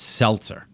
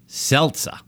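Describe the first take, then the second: First: The word is said without a New York accent. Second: The word is said with a New York accent. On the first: The speaker calls it right. "It's seltzer" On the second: The speaker calls it wrong. "with my New York accent"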